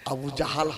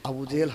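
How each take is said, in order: First: The vowel after 'j' sounds like 'a'. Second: The vowel after 'j' sounds like 'e'. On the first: The speaker calls it right. "Abu জাহাল হবে" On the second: The speaker calls it wrong. "Abu জেহেল হবে না"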